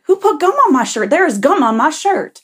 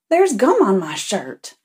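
First: High, loud mock outrage; hammed-up indignant yell, pitch jumping up; upset man. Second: Indignant Southern-style churchgoer. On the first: Teller mimics man finding gum on his shirt, upset outburst. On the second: Retold or imitated. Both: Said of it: "he starts getting upset".

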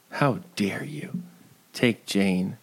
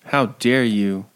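First: An unvoiced whispered rebuke. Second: Said in the usual way. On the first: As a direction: whisper it hoarsely, no voice. Scolding the character twice.

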